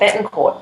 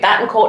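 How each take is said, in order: First: The first vowel sounds like the vowel in 'bet'. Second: The first vowel sounds like the vowel in 'bat'. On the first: The speaker calls it right. "not Bettencourt" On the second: The speaker calls it wrong. "I keep wanting to call you Battencourt"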